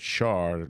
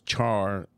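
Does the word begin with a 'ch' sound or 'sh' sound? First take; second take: sh; ch. First: It begins with a 'sh' sound, as in share. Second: It begins with a 'ch' sound, as in chair. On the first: "char like Charlotte" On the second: "char like steak"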